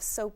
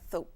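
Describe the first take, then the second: First: The s sound is a clear hiss. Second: The s sound is replaced by a th. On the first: The speaker calls it right. "instead of soap" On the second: The speaker calls it wrong. "the S, you know, might sound more like a T H"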